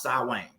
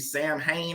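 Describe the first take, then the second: First: The word is said differently from its spelling. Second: The word is read the way it is spelled. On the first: The speaker calls it right. "they say it's pronounced Samhain" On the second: The speaker calls it wrong. "It look like it'd be Sam Hain or something"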